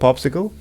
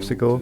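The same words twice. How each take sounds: First: No other voice is heard in the background. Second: Another person talks in the background throughout.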